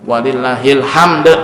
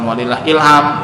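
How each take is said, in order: First: The phrase is split before 'hamd', ending in d. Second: The phrase is split before 'ilham', without final d. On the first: The speaker calls it right. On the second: The speaker calls it wrong. "bukan walillah ilham. si ilham disebut-sebut"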